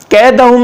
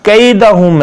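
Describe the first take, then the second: First: कैदहुम with a short flat "e", keh-da-hum; higher, no glide in कैदहुम; mispronunciation demo. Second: कैदहुम slowly with a "ka-ee" glide; correct Quranic pronunciation. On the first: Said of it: "कैदहुम नहीं है". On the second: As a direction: stretch the diphthong in कैदहुम. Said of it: "यहाँ कैदहुम है". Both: Shown as a demonstration.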